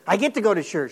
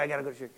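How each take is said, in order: First: It sounds eager and glad. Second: It sounds reluctant and weary.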